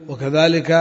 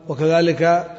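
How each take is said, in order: The two takes are said the same way.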